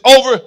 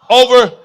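First: Over, hit loud with a falling tune; stressed over. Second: Over, punched loud and drawn out; stressed over. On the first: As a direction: land heavily on over. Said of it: "but get this". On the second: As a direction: lean hard on over. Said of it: "I know it's a little lengthy, but get this". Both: Shown as a demonstration.

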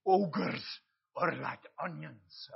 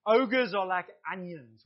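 First: Put-on slow, drawn-out Shrek accent. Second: Said in the usual way. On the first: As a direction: do your best Shrek accent, taking it slowly. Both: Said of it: "That's my best Shrek accent".

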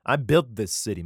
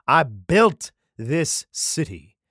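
First: Said in the usual way. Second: "I built this city" slow and loud, word by word; emphatic boast. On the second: Acted. God boasting to David, "I built this city" slowly and emphatically. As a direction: punch "built" and stretch out "city".

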